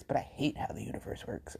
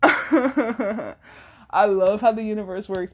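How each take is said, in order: First: Much softer and lower, almost under the breath; low grudging aside. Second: Laugh, then come in higher and louder; real amusement spilling into the words; amused laughter. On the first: Podcaster undercutting her love of the universe, grudging aside. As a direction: drop it to a low mutter. Undercuts what she just said. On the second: Podcaster laughing at how the universe works, amused. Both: Real, not acted.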